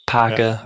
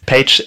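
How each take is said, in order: First: The name is pronounced with German sounds. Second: The name is pronounced with English sounds. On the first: "Page when I speak German" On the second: "Page when I speak English"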